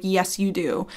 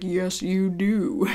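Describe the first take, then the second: First: Said in the usual way. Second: Slow, drawn-out cartoon impression; Family Guy. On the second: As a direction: stretch each word out in a put-on character voice. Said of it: "Family Guy is like".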